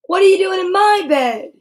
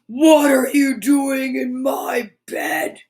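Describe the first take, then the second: First: Higher, louder monster line. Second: A slow, lightly growled monster voice; slow it down and growl it a little; growly big voice. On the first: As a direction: roar it out once more, higher. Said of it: "repeats monster line". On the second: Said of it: "big, deep, growly voice". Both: Acted.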